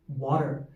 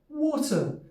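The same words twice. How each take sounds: First: It is said in a standard American accent. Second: It is said in a British RP accent. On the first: "standard American accent, they might say water" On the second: "R P accent or the B B C accent, they might say water"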